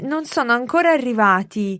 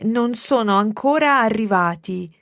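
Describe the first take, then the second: First: It is said at normal, fast speed. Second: It is said more slowly.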